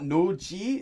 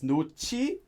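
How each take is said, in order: First: The second syllable sounds like a plain ji. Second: The second syllable sounds like an aspirated chi. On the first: The speaker calls it wrong. "it's not 노지" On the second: The speaker calls it right. "this is actually pronounced like chi"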